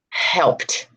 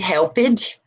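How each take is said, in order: First: The ending is a plain T sound. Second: The ending is an extra 'ed' syllable. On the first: The speaker calls it right. "there's no E and there's a T" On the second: The speaker calls it wrong. "which is what we tend to say"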